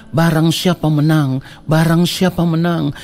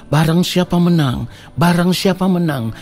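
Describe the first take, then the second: No difference in how they are said.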